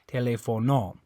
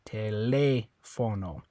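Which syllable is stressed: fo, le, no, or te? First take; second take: no; le. First: The stress is on the last syllable. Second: The stress is on the second syllable. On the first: The speaker calls it wrong. "And if you're stressing this O" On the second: The speaker calls it right. "the one where you're going to stress it is this one because it has the accent mark"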